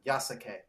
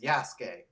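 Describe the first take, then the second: First: The middle u sound is said hard and full. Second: The middle u sound is soft and barely heard. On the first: The speaker calls it wrong. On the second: The speaker calls it right.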